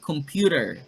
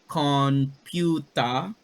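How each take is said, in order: First: It is said with ordinary English sounds. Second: It is said with Japanese katakana-style sounds.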